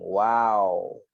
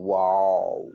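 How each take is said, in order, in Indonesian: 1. Vokalnya berbunyi 'ah' yang terbuka. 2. Vokalnya berbunyi 'oh' yang membulat. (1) "W A" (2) "Bukan wow"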